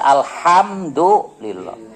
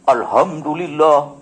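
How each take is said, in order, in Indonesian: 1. H-nya bunyi tenggorokan yang rapat dan berdesah. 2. H-nya napas ringan, biasa saja. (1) "tapi yang benar alhamdulillah" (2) "Salah, karena haknya bukan ha besar"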